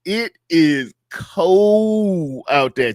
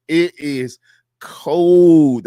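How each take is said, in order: First: "cold" drawn out long and slow; slow stressed cold. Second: "cold" hit much louder and falling; punched cold. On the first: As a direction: stretch "It is cold out there" slowly, leaning on "cold". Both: Shown as a demonstration.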